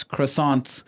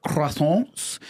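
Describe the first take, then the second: First: Said in the usual way. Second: Croissants with a throaty French R; French-style "croissants"; French pronunciation. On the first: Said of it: "some people pronounce croissants". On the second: Shown as a demonstration. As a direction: say "croissants" the French way, nasal vowel, silent t. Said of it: "other people pronounce it".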